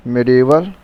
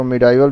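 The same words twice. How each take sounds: First: "मिडिवल" with an ee sound in the middle; pronounced mi-di-val. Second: "मिडाइवल" with an "eye" sound in the middle; the variant "मिडाइवल", middle vowel gliding like "die"; alternative pronunciation mi-dai-val. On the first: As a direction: say "मिडिवल" with no long i as in "eye". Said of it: "इसको मिडाइवल भी कुछ लोग पढ़ते हैं". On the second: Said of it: "भी कुछ लोग पढ़ते हैं". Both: Shown as a demonstration.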